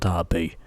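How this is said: It is said with an English pronunciation.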